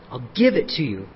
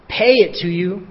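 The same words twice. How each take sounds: First: "give" said lower and softer, set against "pay"; stress on give. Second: Said in the usual way. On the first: Shown as a demonstration. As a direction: lean on "give" in "I'll give it to you". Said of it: "Notice that word. Underline it". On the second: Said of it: "Notice that word".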